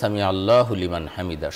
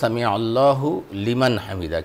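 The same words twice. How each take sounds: First: The words are run together in one stream. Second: The words are said separately, each one distinct. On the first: "একসাথে বললে" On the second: "শব্দটা আসলে"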